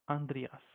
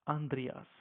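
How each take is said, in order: No difference in how they are said.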